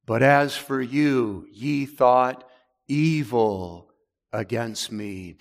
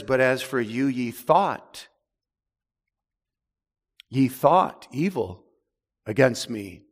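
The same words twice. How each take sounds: First: Slow, weighty scripture reading with long pauses; slow solemn reading. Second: "thought" repeated and leaned on hard; stress on thought. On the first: Preacher reads Joseph's words to brothers slowly and gravely. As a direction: draw each word out as holy text. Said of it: "that word evil emphasizes". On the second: Preacher stresses Joseph's verb "thought" to congregation. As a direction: hit "thought", then fall on "against me". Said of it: "Joseph emphasizes that in the text with the verb". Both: Shown as a demonstration.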